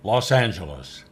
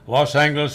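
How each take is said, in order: First: The G is pronounced soft, like in gem. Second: The G is pronounced hard, like in go. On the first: This is the officially decreed pronunciation. "the official pronunciation" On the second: This is the older traditional pronunciation. "with a hard G"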